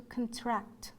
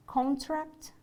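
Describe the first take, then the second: First: ConTRACT, slowly, stressed on the second syllable. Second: CONtract, first syllable higher and stressed. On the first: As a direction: weaken the first vowel of "contract" and lean on TRACT. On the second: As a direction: hit the CON in "contract" with a full vowel. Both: Shown as a demonstration. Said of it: "compare stressed and unstressed syllables".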